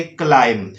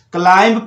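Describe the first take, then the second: First: क्लाइम ending on m; correct silent B. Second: क्लाइंब with the b sounded; wrong reading with B. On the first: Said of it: "आपका उच्चारण होना चाहिए". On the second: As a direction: say क्लाइंब ending in audible b. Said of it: "क्लाइंब पढ़ते हैं". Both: Shown as a demonstration.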